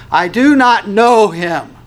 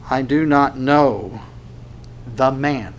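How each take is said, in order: First: Slow, high, loud disavowal; intense denial. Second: Slow, level, deliberate denial; measured denial. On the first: Peter curses and denies Jesus, intense denial. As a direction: deny him forcefully, every word hammered. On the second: Peter denies knowing Jesus, measured denial. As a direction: deny it evenly, word by word. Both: Acted. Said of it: "will become more intense about his denial".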